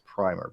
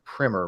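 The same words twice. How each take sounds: First: "primer" said as "pry-mer"; long i in "primer", rhyming with timer; long-i pronunciation. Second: "primer" said as "primmer"; short i in "primer", rhyming with swimmer; short-i pronunciation. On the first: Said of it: "I don't care how you say it". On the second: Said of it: "why I use the word primer". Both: Shown as a demonstration.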